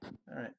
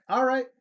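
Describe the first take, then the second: First: Softly giving in; quiet concession. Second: High, loud giving in; emphatic concession. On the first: Streamer told to stay in Just Chatting, quietly conceding. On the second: Streamer told to stay in Just Chatting, loudly conceding. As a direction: raise pitch and volume as you concede. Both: Real, not acted.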